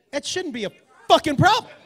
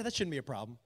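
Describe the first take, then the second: First: FUCKING PROBLEM punched loud and high; emphatic insistence. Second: Low, quiet, offhand; casual reassurance. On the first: Shown as a demonstration. Comic explains what that phrase means back home, emphatic. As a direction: land hard on "fucking problem". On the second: Retold or imitated. Guy at the counter waves off edibles, casual. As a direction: toss it off softly and casually.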